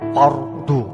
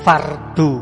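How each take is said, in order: First: The R is pronounced thick and heavy. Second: The R is pronounced thin and light. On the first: The speaker calls it right. "tapi fardu" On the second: The speaker calls it wrong. "Jadi bukan fardu"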